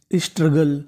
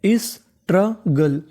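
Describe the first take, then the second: First: Said in the usual way. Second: Drawn-out careful pronunciation; slow model word. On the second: Shown as a demonstration. Teacher drawing out struggle slowly for the class. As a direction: stretch the word struggle out slowly, sounding each part. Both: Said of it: "क्या बन गई meaning?".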